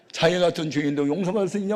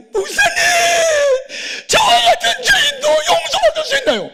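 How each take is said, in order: First: Said in the usual way. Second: Loud, very high hammed-up crying; wailing. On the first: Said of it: "무슨 복음성가 가사 같아". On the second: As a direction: cry out for forgiveness in an acted wail. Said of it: "무슨 엉엉 우는 거예요". (엉엉 울부짖는 흉내)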